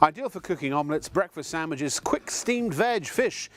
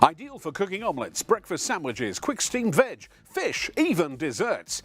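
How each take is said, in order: First: It is read in a normal speaking voice. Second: It is read in an infomercial voiceover voice.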